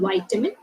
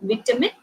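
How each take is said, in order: First: It is said with an American pronunciation. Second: It is said with a British pronunciation. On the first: "vitamin is the American pronunciation"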